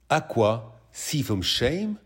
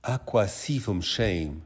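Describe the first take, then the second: First: Each word drawn out, rising in disbelief; slow disbelieving echo. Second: Each word drawn out slowly, teasing; slow mocking quote. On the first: Acted. Boyfriend slowly echoing his misheard lyric in disbelief. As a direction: repeat it slowly, unable to believe it. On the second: Girlfriend slowly repeating the misheard lyric of a singer, teasing. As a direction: spell out his misheard lyric slowly to tease him.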